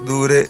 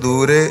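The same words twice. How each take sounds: Both takes have the same delivery.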